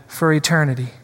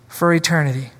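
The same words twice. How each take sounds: The two takes are said the same way.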